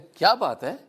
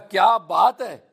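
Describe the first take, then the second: First: It sounds like a genuine question. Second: It sounds like admiring praise.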